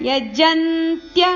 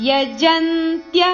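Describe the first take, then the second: The two takes are said the same way.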